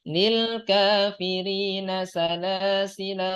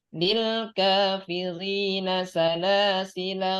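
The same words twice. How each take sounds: The two takes are said the same way.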